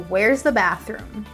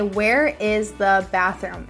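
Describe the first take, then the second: First: Where and is are joined into one contracted word. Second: Where and is are said as two full words. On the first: "It just changes to where's the bathroom" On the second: "notice I didn't say where is the bathroom"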